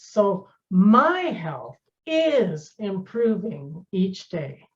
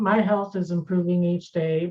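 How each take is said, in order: First: It is said with emotional emphasis on words. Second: It is said flatly without emphasis.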